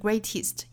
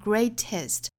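First: The final syllable's vowel is tight and tense. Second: The final syllable's vowel is loose and relaxed. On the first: The speaker calls it wrong. "不要读得过紧，不是 greatest" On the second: The speaker calls it right. "应该是 greatest"

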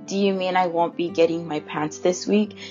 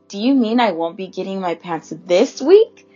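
First: No word is given special stress. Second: The word this is stressed.

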